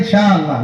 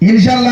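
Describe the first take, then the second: First: The word is stretched out long. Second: The word is said short and plain. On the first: "ইনশাআল্লাহ লম্বা করিয়া কই" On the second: "ইনশাআল্লাহ না"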